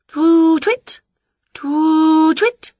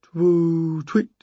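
First: Loud, high hooting; witch's eager high owl impression; calling owl imitation. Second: Answering owl. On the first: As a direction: call out like an owl. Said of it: "she called". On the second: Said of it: "came a reply". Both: A narrator's reading.

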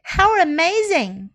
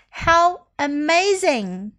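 First: Amazed delivery. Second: Said in the usual way. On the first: Shown as a demonstration. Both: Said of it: "你都可以说".

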